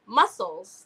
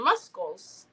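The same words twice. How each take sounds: First: Said in the usual way. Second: "muscles" said as MUS-kulls; muscles with hard C. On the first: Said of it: "like your muscles". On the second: Shown as a demonstration. Telling which word she misspelled, "muscles" as MUS-kulls. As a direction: sound the silent C in "muscles" as a K. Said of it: "Yes, I said muscles".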